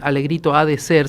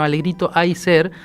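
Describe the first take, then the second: First: The words 'ha de' are said in full. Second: The words 'ha de' merge into one syllable. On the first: "no decimos en el norte" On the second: "sino Alegrito hay ser"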